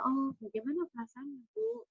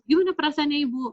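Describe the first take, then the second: First: It is said slowly and calmly. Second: It is said too fast.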